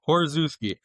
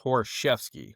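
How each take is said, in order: First: The name is said in an Americanized way. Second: The name is said in the old Polish way. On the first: This is the way the name is normally said. "You said one of them right" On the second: This is the traditional pronunciation of the name. "the old Polish way is"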